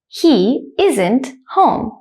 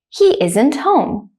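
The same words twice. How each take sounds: First: The sentence is said slowly and carefully. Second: The sentence is said quickly and smoothly. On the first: "I'll say the first one slowly" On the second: "the second time I'll say it quickly like a native speaker"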